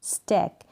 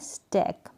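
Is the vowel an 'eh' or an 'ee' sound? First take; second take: eh; eh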